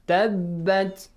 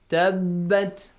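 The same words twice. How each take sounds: First: The b sound is held as one doubled consonant. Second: The same.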